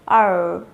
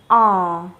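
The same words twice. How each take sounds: First: It is said in an American accent. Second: It is said in a British accent. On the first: "if you follow the American accent, so we can pronounce like R" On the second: "as I follow the British accent, so I think I should pronounce like R"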